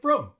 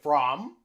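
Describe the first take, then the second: First: The vowel is reduced to schwa. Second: The vowel is a full, clear vowel. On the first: The speaker calls it right. "We say from" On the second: The speaker calls it wrong. "We don't say from"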